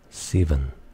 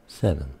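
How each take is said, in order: First: It is said in a New Zealand accent. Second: It is said in an Australian accent. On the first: "A Kiwi will say" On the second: "An Australian will say"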